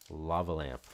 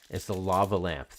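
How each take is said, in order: First: Said in the usual way. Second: Excited recognition. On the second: Real, not acted. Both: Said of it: "Thank you, my friend [name], for pointing that out".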